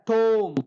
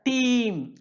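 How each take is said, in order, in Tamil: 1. உயிரெழுத்து 'oh' போல ஒலிக்கிறது. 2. உயிரெழுத்து 'ee' போல ஒலிக்கிறது. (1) "ஷேக்ஸ்பியருடைய பீரியடில் டோம் அப்படின்னு ப்ரொனவுன்ஸ் பண்ணியிருக்காங்க" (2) "சாசருடைய பீரியடில் டீம் அப்படின்னு பண்ணியிருக்காங்க"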